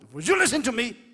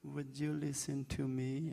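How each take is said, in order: First: It is said in a powerful, strong voice. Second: It is said in a soft, gentle voice.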